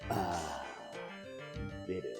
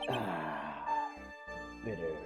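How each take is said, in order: First: It is said in a deep put-on voice. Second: It is said in an ordinary, not deep, voice. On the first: The speaker calls it right. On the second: The speaker calls it wrong.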